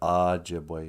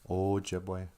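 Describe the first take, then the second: First: The first O is a short, reduced vowel. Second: The first O is a long O vowel. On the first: The speaker calls it wrong. "It's not Ojibwe, you guys. Quit saying that" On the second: The speaker calls it right. "O's are always a long O"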